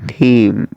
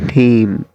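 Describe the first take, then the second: The two takes are said the same way.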